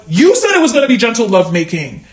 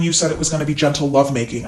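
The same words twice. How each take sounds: First: Indignant YOU, punched high at the start; stress on YOU. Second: Said in the usual way. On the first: Retold or imitated. Woman retorting to her date's text, high stress on YOU. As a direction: throw it back with a high, hard YOU. Indignantly throws his words back.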